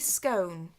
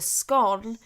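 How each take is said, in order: First: The vowel is a long O, like 'cone'. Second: The vowel is a short O, like 'gone'. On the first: "So I say scone, which is unusual for me because scone sounds like the posher pronunciation" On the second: "the short O, the scone, is the posh pronunciation"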